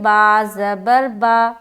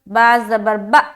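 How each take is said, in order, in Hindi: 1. छोटे स्वर को जल्दी लेकिन सहजता से बोला जाता है। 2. छोटे स्वर को झटके के साथ काटा जाता है। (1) "आराम आराम से पढ़ना है, लंबा नहीं करना है और ना ही झटका देना है" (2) "ये जर्क हो जा रहा है, ये झटका हो जा रहा है, जो कि गलत है।"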